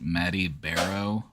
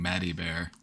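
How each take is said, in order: First: The name ends with an extra 'oh' sound. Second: The name ends without an extra 'oh' sound. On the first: "Should I be pronouncing the O?" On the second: "I've always just been saying Maddie Bear"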